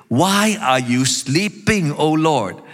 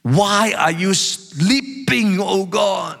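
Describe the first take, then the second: First: Slow, pleading reproach; emotional plea. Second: High, slow cry of indignation; emotional outcry. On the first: Psalmist calling on the Lord to wake, emotional plea. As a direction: urge a sleeping God to wake, stretched out. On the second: Psalmist demanding that a sleeping God answer, emotional outcry. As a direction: cry out to heaven, drawing out each word. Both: Acted. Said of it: "Can you feel the emotional tone?".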